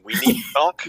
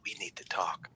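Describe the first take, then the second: First: It is spoken in a normal full voice. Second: It is spoken in a soft whisper.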